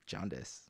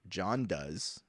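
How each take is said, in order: First: The name is said quickly and run together. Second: The name is said at a normal, unhurried pace.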